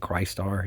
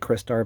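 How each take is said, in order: First: The name starts like the word Christ. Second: The name starts like the word crystal. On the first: The speaker says it this way. "but I say Christ Star. It just sounds cooler like that" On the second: Other people say it this way. "some people say Christar"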